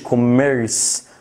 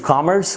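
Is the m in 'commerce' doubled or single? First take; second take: doubled; single. First: The m is held long and doubled. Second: The m is short and single. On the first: The speaker calls it wrong. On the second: The speaker calls it right.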